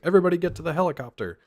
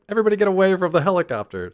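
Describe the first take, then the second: First: Higher, fast call to the helicopter; urgent call. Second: Higher, louder, fast panicked order; urgent reversal. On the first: Character ordering escape, higher rushed call. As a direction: hurry everyone along. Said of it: "He's like". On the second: Character reversing the escape order, louder panicked call. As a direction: yell them away in a hurry. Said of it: "So they're like". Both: Retold or imitated.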